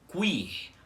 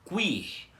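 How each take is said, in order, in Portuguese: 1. Um som de w vem antes do i. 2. Um som de w vem antes do i.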